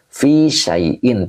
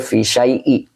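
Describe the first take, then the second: First: The last word ends with an n sound. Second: The last word ends without an n sound. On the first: The speaker calls it right. "Kenapa pakai tanwin?" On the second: The speaker calls it wrong. "tidak boleh"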